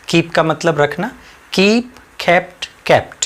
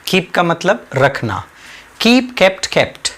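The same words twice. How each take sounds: The two takes are said the same way.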